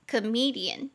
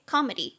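First: Comedian with the weight on the "me" syllable, co-ME-dian; teacher models comedian, second syllable stressed. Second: Comedy with the weight on the "co" syllable, CO-medy; teacher models comedy, first syllable stressed. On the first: Teacher demonstrating word stress to learners, stress on second syllable. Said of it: "重音节在第二音节". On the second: Teacher contrasting comedy with comedian, stress on first syllable. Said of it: "重音节在第一音节". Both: Shown as a demonstration.

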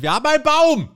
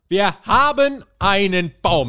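First: High, loud proud announcement; triumphant cry; excited shout. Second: Slow, high, loud mock proclamation; solemnly mock pronouncement of "Wir haben einen Baum". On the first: Real, not acted. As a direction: shout it out like big news. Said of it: "excited announcement of bracket". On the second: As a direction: proclaim it slowly like grand news. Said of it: "repeated slower mock solemn".

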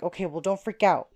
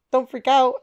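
First: Said in the usual way. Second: Higher, louder retold echo; alarmed echo. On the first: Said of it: "And he was like". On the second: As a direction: throw his words back in alarm. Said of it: "I was like".

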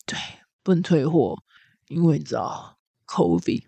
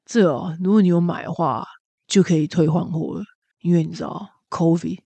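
First: Low, soft, slow jaded clerk; world-weary clerk. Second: A hint of a jaded clerk, soft and low; world-weary clerk. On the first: Retold or imitated. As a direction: sigh it out like you're bored to death. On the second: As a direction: mumble it, eyes on the floor. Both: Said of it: "非常的厌世".

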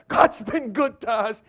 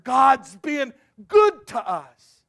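First: Said in the usual way. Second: Much louder, slow, every word leaned on; slow emphatic refrain. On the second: Acted. Preacher hammers the refrain to the congregation, slow and loud. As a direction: drive it home slowly. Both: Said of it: "repeated refrain".

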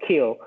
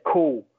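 First: "kill" with a fronted Scottish vowel; cool said Scottish-style, sounding like "kill"; Scottish pronunciation of cool. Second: "cool" with a long oo; "cool" said the southern English way, drawn-out oo; corrected English pronunciation. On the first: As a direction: mimic the mistaken "kill" for cool. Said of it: "He said to me, "It's not kill". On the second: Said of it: "it's cool, like this". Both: Retold or imitated.

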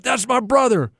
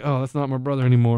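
First: Proud, higher-pitched exclamation; higher, proud cry without extra volume; excited. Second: Low, soft, quick disowning; mock disappointment, dropped low and quiet; deflated. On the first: Retold or imitated. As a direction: retell an excited sideline cheer. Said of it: "I was excited". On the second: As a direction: let the pride drain out, quickly. Deflated after brother got blocked.

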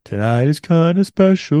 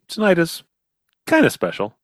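First: Sultry beer ad voice. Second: Lightly voiced beer commercial. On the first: Retold or imitated. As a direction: purr it like a beer commercial. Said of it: "sort of like, low brow". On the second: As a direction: echo the beer ad line. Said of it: "Here's to good friends".

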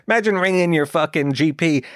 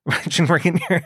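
First: Said in the usual way. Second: Words broken up by real laughter; giggling at the silly thought; laughing. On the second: Real, not acted. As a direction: laugh through the line. Laughing at own absurd idea.

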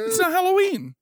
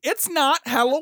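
First: Higher, sing-song line; high-pitched quote. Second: Raised, playful repeat; high-pitched quote. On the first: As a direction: pitch it up like a cartoon. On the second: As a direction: sing it up again, lighter. Quoting again. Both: Retold or imitated.

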